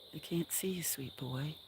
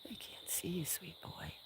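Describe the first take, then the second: First: Said in the usual way. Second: Tender whisper, much softer. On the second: Real, not acted. Owner reassures her sweet boy, tender whisper. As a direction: whisper it close so only he hears.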